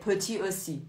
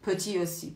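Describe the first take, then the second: Both takes have the same delivery.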